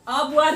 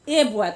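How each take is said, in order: First: The article is a short weak 'uh' sound. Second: The article is a full long 'ay' sound. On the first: The speaker calls it right. "अ boy read करेंगे ना" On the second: The speaker calls it wrong. "हम लोग क्या बोलते हैं, ए boy ... तो गलत बात है"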